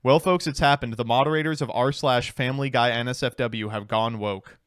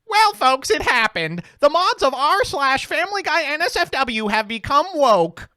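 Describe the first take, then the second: First: It is said in his normal voice. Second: It is said in a put-on character voice.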